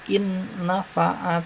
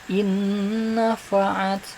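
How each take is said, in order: First: The first n is said separately and clearly. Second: The first n merges into the following n. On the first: The speaker calls it wrong. "bukan in nafa'at" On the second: The speaker calls it right. "tapi in nafa'at ... dimasukkan sinunnya ke nun"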